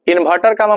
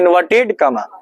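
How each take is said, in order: First: The first word ends with an r sound. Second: The first word ends with a d sound. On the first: The speaker calls it wrong. "इन्वर्टर comma मत पढ़िएगा" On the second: The speaker calls it right. "इन्वर्टेड comma उद्धरण चिन्ह कहा जाता है"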